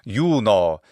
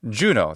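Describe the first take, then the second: First: It is said with a Latin pronunciation. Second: It is said with an English pronunciation. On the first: "in Latin" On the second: "the English pronunciation of that Roman goddess"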